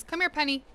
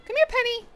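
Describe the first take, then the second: First: Said in the usual way. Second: Much higher coaxing call to the dog; high pet call. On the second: Real, not acted. Calling Penny over for cheese, very high sing-song call.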